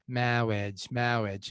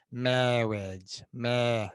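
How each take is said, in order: First: Said in the usual way. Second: "marriage" as "mawwiage", tongue pushed right up; Peter Cook marriage. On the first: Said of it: "it's okay, but it's not fully there". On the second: Shown as a demonstration. Coach shows the full Peter Cook "marriage". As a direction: close the gap and say "mawwiage". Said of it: "You're really making this gap very small".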